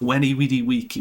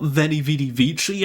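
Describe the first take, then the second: First: The words begin with a W sound. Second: The words begin with a V sound. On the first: The speaker calls it right. "There's no V. It's all W" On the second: The speaker calls it wrong. "It's not"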